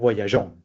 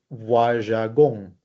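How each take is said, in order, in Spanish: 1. La g se pronuncia como un sonido suave, zh. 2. La g se pronuncia como un sonido de g dura. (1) "Tiene que sonar" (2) "si no, pusiera esta E intercalada, sonaría"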